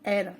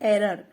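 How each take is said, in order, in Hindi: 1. यह शब्द एक अक्षर में बोला जाता है। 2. यह शब्द दो अक्षर में बोला जाता है। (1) "उसका जो सही प्रोनाउंसिएशन है वो है एर" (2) "लेकिन वो गलत है"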